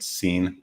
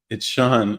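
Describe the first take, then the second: First: The name is said like the word seen. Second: The name is said like shawn. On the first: The name is read the way it is spelled. "this is S E A N. That's how you pronounce that" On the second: This is how the name's owner says it. "no, my name's not Scene. It's Sean"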